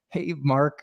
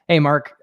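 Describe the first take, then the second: First: The voice sounds nervous and hesitant. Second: The voice sounds confident and relaxed. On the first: The listener will probably hang up. The speaker calls it wrong. "you're nervous" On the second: The listener might enjoy the call. The speaker calls it right. "I was decently confident and comfortable"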